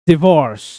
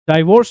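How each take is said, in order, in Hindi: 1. पहला अक्षर 'dih' जैसा सुनाई देता है। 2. पहला अक्षर 'die' जैसा सुनाई देता है। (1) "इट्स डिवोर्स" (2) "डाइवोर्स नहीं"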